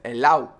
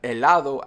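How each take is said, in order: First: The d before the final o is dropped. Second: The d before the final o is pronounced. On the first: "I said helao" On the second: "instead of helado"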